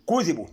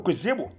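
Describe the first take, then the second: First: كذبوا read kuzibu, kasra under the dhal, no shadda, falling; كذبوا with short i under the dhal, no doubling; correct reading. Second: كذبوا said wrongly as kuzebu with a rising tune; كذبوا warned against, read kuzebu rising. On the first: Teacher gives the correct كذبوا, kuzibu with kasra. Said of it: "كسرة تحت الذال". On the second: Teacher shows viewers the mistaken كذبوا, read kuzebu. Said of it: "اوعى تقول". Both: Shown as a demonstration.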